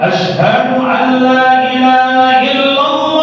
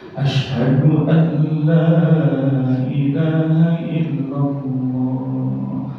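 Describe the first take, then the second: First: It is said loudly and forcefully. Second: It is said quietly and gently.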